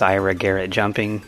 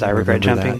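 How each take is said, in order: First: The words are said distinctly and apart. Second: The words are slurred together into one run. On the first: This is the name's true form. The speaker calls it right. "longtime fans know him as" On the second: This is a common mishearing of the name. The speaker calls it wrong. "it just kind of gets slurred together as"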